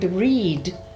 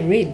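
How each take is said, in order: First: The vowel is said long. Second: The vowel is said short. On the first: The speaker calls it wrong. "you can't say the word read" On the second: The speaker calls it right. "it's a very short, ... you say read"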